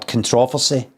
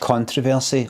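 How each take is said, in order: First: It is said the old local way. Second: It is said the everyday way.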